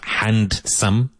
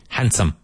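First: The D sound is pronounced in the middle. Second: The D sound is left out in the middle. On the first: The speaker calls it wrong. "So it's not handsome" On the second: The speaker calls it right. "the letter D is pretty much silent"

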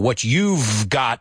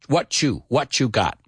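First: A v sound is heard after 'you'. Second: No v sound; 'what you' blends into 'watchu'.

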